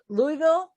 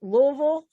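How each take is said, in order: First: "Louisville" said as LOO-ee-vil, rising; "Louisville" in three syllables, Louie-vil; Louie-ville pronunciation. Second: "Louisville" squeezed into LOO-vul, rising; "Louisville" in two syllables, middle swallowed; Loo-vul pronunciation. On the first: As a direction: say "Louisville" with a clear "ee" in the middle, questioning. Trying out the city's pronunciation. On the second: Second try at the city's pronunciation. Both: Shown as a demonstration.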